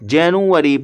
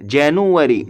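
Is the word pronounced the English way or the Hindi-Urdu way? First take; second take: English; English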